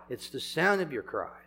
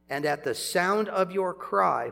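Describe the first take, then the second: First: "sound" stressed, "cry" left light. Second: Said in the usual way. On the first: Shown as a demonstration. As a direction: land the weight on "sound", not "cry". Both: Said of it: "it's not just the cry".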